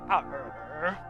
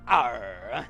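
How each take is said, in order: First: A weak, half-hearted pirate growl. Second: A fuller, more committed pirate growl. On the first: "that was without a doubt the poorest impression of a pirate I've ever done" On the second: "you can do better than that"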